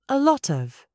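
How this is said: It is spoken with a British accent. The speaker calls it right.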